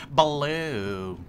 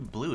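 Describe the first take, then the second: First: BLUE split into a stretched "ba-loo"; drawn-out BLUE. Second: Said in the usual way. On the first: Shown as a demonstration. Player jokes about a game word, BLUE drawn out as "ba-loo". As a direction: stretch BLUE into two syllables, "buh-looo". Playful exaggerated repeat of blue.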